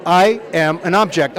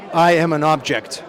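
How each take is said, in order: First: Slow, louder deadpan; slow John impression. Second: Slow, flat deadpan declaration; horrible John impression. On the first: John repeats to the director, slower and louder. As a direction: repeat it gravely and slowly. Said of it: "And he's like". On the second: John tells the director he is just an object, slow deadpan. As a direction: announce it like a stoic actor. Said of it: "I'm gonna do a horrible John impression".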